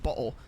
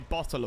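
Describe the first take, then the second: First: The middle T is dropped or glottalized. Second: The middle T is clearly pronounced. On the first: The speaker calls it wrong. "why you shouldn't pronounce it bottle" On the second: The speaker calls it right. "I know that there's a T in there... so you should pronounce it"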